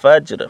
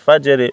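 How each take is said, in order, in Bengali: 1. শব্দটি খালি ব্যঞ্জনে শেষ হয়। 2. শব্দটি i স্বরে শেষ হয়।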